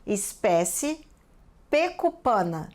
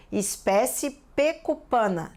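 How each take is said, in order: First: Slow "Espécie" rising, pause, then "pecupana"; writing-out dictation. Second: Said in the usual way. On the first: Real, not acted. Teacher adding the species to the list, slow dictation. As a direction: spell it out word by word, "Espécie" drawn out before "pecupana". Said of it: "Vou anotar na nossa lista".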